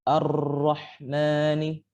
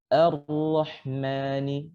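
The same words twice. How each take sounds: First: The doubled R is trilled repeatedly and clearly. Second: The doubled R has only a brief, light trill. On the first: The speaker calls it wrong. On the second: The speaker calls it right. "pengulangannya atau sifat pengulangannya itu dikurangi"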